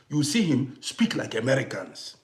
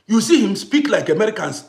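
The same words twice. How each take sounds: First: Softer first telling, trailing off; quiet aside. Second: Lands it again, pressing the point home; emphatic repeat. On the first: Father on his son's movie accent, said softly. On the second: Father insisting to viewers about his son, emphatic. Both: Real, not acted.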